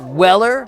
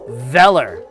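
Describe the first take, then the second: First: The name begins with a W sound. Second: The name begins with a V sound. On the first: The speaker calls it wrong. "It's not Weller" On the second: The speaker calls it right. "It's Veller"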